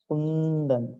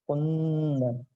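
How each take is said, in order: The two takes are said the same way.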